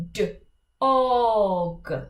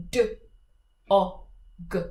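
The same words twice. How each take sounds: First: D, o, g with the o stretched long; stretched middle sound. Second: D, o, g as three short sounds; short separate sounds. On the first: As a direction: hold the o in d, o, g. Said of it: "stretch the middle sound". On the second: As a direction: clip each sound of d, o, g. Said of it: "three short sounds". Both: Shown as a demonstration.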